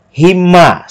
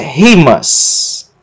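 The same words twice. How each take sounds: First: The stress falls on the last syllable. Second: The stress falls on the first syllable. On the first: The speaker calls it right. "sílaba tônica, mas" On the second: The speaker calls it wrong. "não é rimas"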